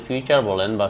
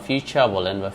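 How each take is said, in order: Both takes have the same delivery.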